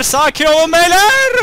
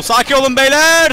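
First: Slow, much higher, loud hammed-up cry; drawn-out mock shout. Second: Loud, high shout at the troops; shouted call. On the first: Gamer hams up calming his soldiers, slow high shout. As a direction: stretch every word like a comic war cry. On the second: Pretend. Gamer shouts at his soldiers to calm down, loud. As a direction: yell it over the battle noise.

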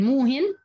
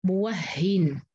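First: موهن said short as mu-hin, no doubled ha; the form being replaced, موهن as mu-hin; Hafs form muhin. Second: موهن said as mu-wah-hin with open waw and stressed double ha; the other readers' form, موهن as mu-wah-hin; doubled ha form. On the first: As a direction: give موهن plainly as mu-hin. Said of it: "فبدل موهن". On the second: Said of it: "بتصير". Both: Shown as a demonstration.

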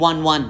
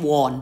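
First: "one one" said like the number one, "wun"; correct pronunciation. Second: "won" said as "wawn", with a long open o; wrong pronunciation. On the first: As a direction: say "one one" with a short "uh" vowel, as "wun". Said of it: "ออกเสียงเป็น one นะคะ". (ออกเสียง "one one" เป็น "วัน" เหมือนเลขหนึ่ง) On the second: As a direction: mispronounce "won" as Thai-style "wawn", rhyming with "dawn". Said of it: "ไม่ใช่ won ไม่ใช่ won". (ออกเสียง "won" ผิดเป็น "วอน") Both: Shown as a demonstration.

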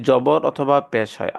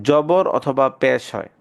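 No difference in how they are said.

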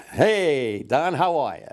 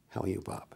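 First: High, swooping stage hello; big showbiz greeting. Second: Subdued greeting. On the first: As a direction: make a grand entrance with it. Acted repeat of entrance greeting. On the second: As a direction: drop the showmanship, greet quietly. Acted greeting, said much lower. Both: Retold or imitated.

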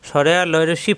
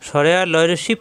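No difference in how they are said.

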